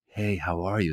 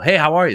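First: It is said quietly and low-key. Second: It is said at a medium volume.

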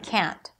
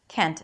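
First: The vowel is a wide open 'a' sound. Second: The vowel is a closer 'e' sound. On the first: It is heard as the negative form. The speaker calls it right. "instead of can't" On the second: It may be heard as the positive form. The speaker calls it wrong. "you don't pronounce it as Kent"

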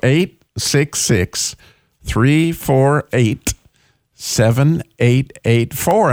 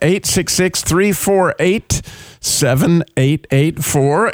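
First: The number is said slowly. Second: The number is said fast.

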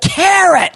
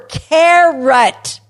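First: The word is said louder, at normal speed. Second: The word is said slower, at normal loudness. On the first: "So you might say a little louder" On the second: "And then you might say it slower"

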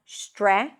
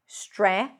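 Both takes have the same delivery.

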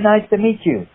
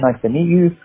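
First: It is spoken in a put-on Chinese accent. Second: It is spoken in a Cockney English accent. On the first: This is put on to meet casting expectations. "do the audition with a Chinese accent" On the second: This is the speaker's own natural way of talking. "I have a heavy accent, a Cockney accent"

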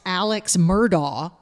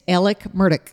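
First: The first name ends with a 'ks' sound. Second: The first name ends with a plain 'k' sound. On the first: The speaker calls it wrong. "it is not pronounced Alex" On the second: The speaker calls it right. "It's Alec Murdaugh"

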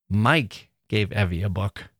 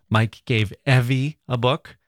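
First: The stress is on Mike. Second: The stress is on Evie.

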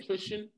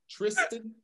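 First: The middle of the name sounds like 'sh'. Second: The middle of the name sounds like 'st'. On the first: The speaker calls it wrong. "You said Trishan" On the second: The speaker calls it right. "Say this man name right"

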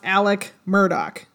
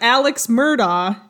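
First: The first name ends with a k sound. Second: The first name ends with a ks sound. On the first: The speaker calls it right. "it's pronounced" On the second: The speaker calls it wrong. "it looks like"

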